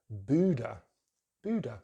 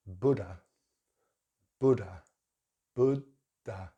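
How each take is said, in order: First: Buddha with long oo; American Buddha. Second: Buddha with short u; British Buddha. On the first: Teacher demonstrating American Buddha. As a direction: round the lips for a long oo in Buddha. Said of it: "they use the long vowel sound". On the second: Teacher demonstrating British Buddha. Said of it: "This word in British English is". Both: Shown as a demonstration.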